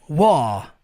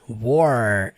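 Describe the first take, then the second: First: It is said without a strong final R sound. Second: It is said with a strong final R sound. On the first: "Sotaque britânico. War. Não força o R" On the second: "É o que a gente fala no americano"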